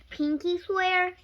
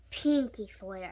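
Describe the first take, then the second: First: Slow, high questioning pinky swear with "swear" rising; "Pinky swear?" drawn out as a hopeful question; asking pinky swear. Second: Lower, slow, firm "Pinky swear," as a promise; answering pinky swear. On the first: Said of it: "she asked, staring down". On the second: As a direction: settle it: "Pinky swear," stressed on pinky. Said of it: "I said". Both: A narrator's reading.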